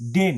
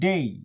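First: The vowel is a plain single sound. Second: The vowel glides toward an ee sound. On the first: The speaker calls it wrong. "ডে না" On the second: The speaker calls it right. "ওয়াই আয়ের মতো উচ্চারণ হবে"

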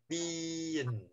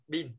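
First: The final n sound is clearly released. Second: The final n sound is clipped and barely heard. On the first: The speaker calls it right. "Nhưng mà tiếng Anh nó sẽ đọc hết ra" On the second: The speaker calls it wrong. "Bình thường mình đọc là bin. Đúng không? Chỉ một một âm thôi"

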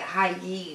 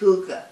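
First: The word sounds like 'high-yee'. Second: The word sounds like 'hoo-ga'. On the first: The speaker calls it wrong. "I would pronounce it Hi-Yi" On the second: The speaker calls it right. "But it's pronounced Huga"

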